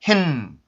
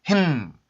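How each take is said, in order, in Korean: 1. N 소리가 강한 비강음으로 분명하게 들립니다. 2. N 소리가 강한 비강음으로 분명하게 들립니다.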